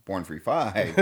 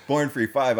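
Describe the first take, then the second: First: Said in the usual way. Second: Laughing. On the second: Real, not acted. Repeats it laughing.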